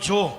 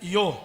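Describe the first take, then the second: First: The word begins with a J sound. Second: The word begins with a Y sound. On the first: The speaker calls it right. "હું બોલ્યો જો" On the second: The speaker calls it wrong. "બીજા બધા શું બોલે?"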